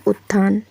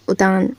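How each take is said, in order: First: उत्थान said ut-thaan with held double t; उत्थान with a stop before "thaan"; correct form. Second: उतान read as u-taan with single t; उतान, the T left single; misspelt form. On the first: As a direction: hold the T, then release THAAN in उत्थान. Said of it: "ये इसका सही रूप होगा". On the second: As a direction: say उतान with one short T, no aspiration. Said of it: "तो क्या होता है". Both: Shown as a demonstration.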